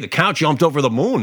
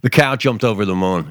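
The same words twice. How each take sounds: First: It sounds pleased and approving. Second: It sounds resentful and disapproving.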